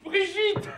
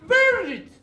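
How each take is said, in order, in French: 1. Le nom est prononcé avec un accent français. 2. Le nom est prononcé avec un accent anglais.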